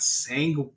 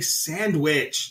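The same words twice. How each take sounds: First: The word is said with a 'g' sound in the middle. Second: The word is said without a 'g' sound in the middle. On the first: The speaker calls it wrong. "It's not sandwich" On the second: The speaker calls it right. "You say sandwich"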